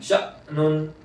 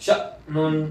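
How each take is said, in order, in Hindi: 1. स्वर एक तीखे ग्लॉटल कैच से कट जाता है। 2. स्वर एक तीखे ग्लॉटल कैच से कट जाता है।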